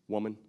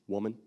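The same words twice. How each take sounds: The two takes are said the same way.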